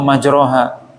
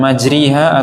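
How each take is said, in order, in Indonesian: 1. Vokal setelah r adalah a yang jelas. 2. Vokal setelah r adalah i yang jelas. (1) "atau majroha" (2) "bukan majriha"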